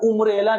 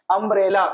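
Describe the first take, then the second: First: उम्ब्रेला opened with an "oo" sound; "u" mispronunciation. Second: अम्ब्रेला opened with a short "a" sound; short "a" pronunciation. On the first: Teacher showing students how not to read umbrella, "u" mispronunciation. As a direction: say उम्ब्रेला with "u" in place of "a". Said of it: "अम्ब्रेला को उम्ब्रेला नहीं पढ़ते हैं". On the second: Teacher reading the word umbrella for students, short "a" pronunciation. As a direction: say अम्ब्रेला with "uh" as the first vowel. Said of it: "यू का sound जो है अ हो रहा है". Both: Shown as a demonstration.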